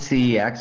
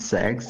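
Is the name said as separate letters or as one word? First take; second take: letters; one word. First: The name is spelled out as two letters. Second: The name is said as one word, sex. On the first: "I pr usually pronounce it C X" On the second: "although they pronounce it sex"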